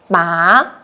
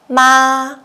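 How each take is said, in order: First: The pitch rises from mid to high. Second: The pitch stays high and level. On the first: "we use the second tone" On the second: "we use the first tone"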